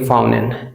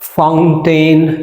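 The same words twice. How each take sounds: First: The t after n is dropped. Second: The t after n is clearly pronounced.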